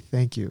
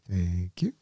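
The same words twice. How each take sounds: First: It is said plainly and straightforwardly. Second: It is said vaguely, in a noncommittal way.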